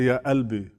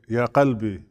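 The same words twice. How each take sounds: First: Qalbi begins with a glottal stop, Levantine style. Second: Qalbi begins with a deep uvular q sound.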